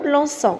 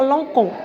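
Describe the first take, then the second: First: The consonant before the o sounds like s. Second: The consonant before the o sounds like k. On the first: The speaker calls it right. "pour éviter de le prononcer K, on met la cédille" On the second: The speaker calls it wrong. "S'il n'y a pas la cédille, on va lire l'encon. Et ce n'est pas possible"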